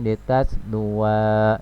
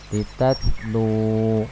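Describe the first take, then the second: First: The word ends with an added 'wa' sound. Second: The word ends with a long 'u' sound. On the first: The speaker calls it wrong. "ini salah ya" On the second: The speaker calls it right. "Yang betul adalah litatlu ya, kalau waqaf"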